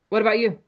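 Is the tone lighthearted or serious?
serious. The tone is heavy and serious. The topic is a sore point. The speaker calls it wrong.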